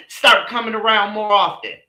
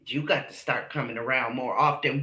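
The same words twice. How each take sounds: First: Mocking echo. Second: Low, soft sing-song quote of the mama; lightly voiced mama, lower and softer; mimicking the mama. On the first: Echoing the mama's invite with scorn. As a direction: throw her words back at her. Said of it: "Why do we have to come". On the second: Mocking the mama's invitation, low and soft. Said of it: "mama gonna say to him".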